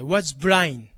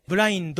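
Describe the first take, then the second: First: Was blind ending in "blain"; dropped final consonant. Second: Blind said as "bu-ra-in-do"; katakana final vowel. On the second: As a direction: add a full "do" to "blind". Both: Shown as a demonstration. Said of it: "じゃなくて".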